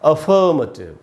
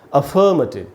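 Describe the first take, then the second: Both takes have the same delivery.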